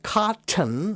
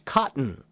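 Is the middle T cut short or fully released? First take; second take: fully released; cut short. First: The middle T is fully and strongly released. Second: The middle T is cut short, only half pronounced. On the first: "the strong t" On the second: "only say the second half of the letter T"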